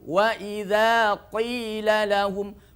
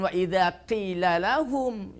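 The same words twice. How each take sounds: First: The q in qila is heavy and thick. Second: The q in qila is light and thin. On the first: The speaker calls it right. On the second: The speaker calls it wrong.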